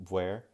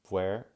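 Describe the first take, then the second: The two takes are said the same way.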